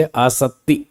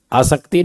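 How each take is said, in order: First: आसक्ति slowly with double t like आपत्ति, no k; doubled t. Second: आसक्ति with an audible k before the t; wrong k sound. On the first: Teacher comparing it with आपत्ति, slow doubled t. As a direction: hold the t in आसक्ति before the last vowel. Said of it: "आपत्ति में तो double होता है". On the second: Teacher warning against the mistake, k pronounced before t. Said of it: "क नहीं बोलना". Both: Shown as a demonstration.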